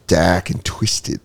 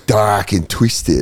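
First: Put-on slow Australian accent on "Dak and Twisted". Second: Put-on slow Australian accent, "Dak" falling. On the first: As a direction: drawl "Dak and Twisted" like an Aussie. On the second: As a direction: say "Dak and Twisted" slowly like an Aussie. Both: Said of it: "in the Australian accent".

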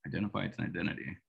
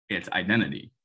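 First: "Identify its identity" tossed off softer and quick; wry quiet repeat. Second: Said in the usual way. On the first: Shown as a demonstration. Host savouring his own clumsy phrase, a quick soft aside. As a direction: mutter it back as a wry aside. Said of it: "That's either lazy or pretty dope".

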